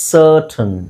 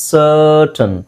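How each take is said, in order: No difference in how they are said.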